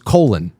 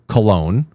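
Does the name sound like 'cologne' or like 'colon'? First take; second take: colon; cologne. First: It sounds like the word colon. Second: It sounds like the word cologne.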